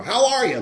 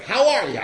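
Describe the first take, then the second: First: High, loud mocking hello; sarcastic greeting. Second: Bright, high, eager hello; super glad greeting. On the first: Toothless old-timer mocking the newcomer, sarcastic. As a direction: needle the cheerful newcomer. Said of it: "this guy with no teeth that was like". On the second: Retold or imitated. Friendly AA member greeting the newcomer, overjoyed. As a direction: greet him like a long-lost friend. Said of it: "He was, like, super glad to meet me".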